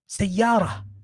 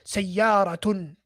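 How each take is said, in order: First: The word ends in a plain 'a' sound. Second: The word ends with an added 'tun' syllable. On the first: The speaker calls it right. "I'm going to teach you like that" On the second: The speaker calls it wrong. "I'm not going to say to you ... And pronounce the ta marbuta at the end"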